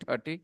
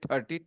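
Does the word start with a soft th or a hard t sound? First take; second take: hard t; hard t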